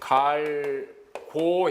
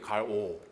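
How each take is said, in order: First: The middle g is said as a full stop. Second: The middle g weakens to a voiced throat friction. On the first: "갈고 했을 때" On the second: "기억이 약화되면 … 갈오 이렇게 돼요"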